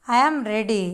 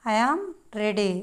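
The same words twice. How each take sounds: First: Said in the usual way. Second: "I am", short pause, then ready falling; word by word. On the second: Shown as a demonstration. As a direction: split ready off from I am. Teacher models phrase word by word. (I am తర్వాత ఆగి ready అనడం)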